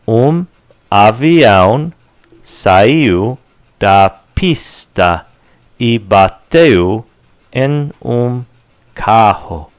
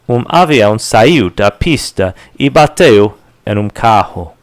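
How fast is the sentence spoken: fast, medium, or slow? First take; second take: slow; fast. First: The sentence is spoken slowly. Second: The sentence is spoken quickly. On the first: "Let's go slower" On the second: "And faster"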